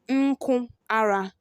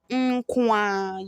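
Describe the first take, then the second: First: The r sound is pronounced in full. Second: The r sound is dropped entirely.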